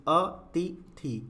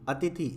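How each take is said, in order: First: अतिथि split slowly as अ… ति… थि; syllable by syllable. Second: Said in the usual way. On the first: Shown as a demonstration. Teacher reads the word for learners, broken up. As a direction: sound out अतिथि in pieces. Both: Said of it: "पहले पढ़ लेते हैं".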